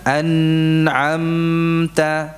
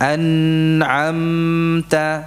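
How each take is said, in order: First: The nasal sound is held for a long time. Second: The nasal sound is held for a long time.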